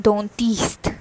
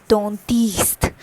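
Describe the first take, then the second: No difference in how they are said.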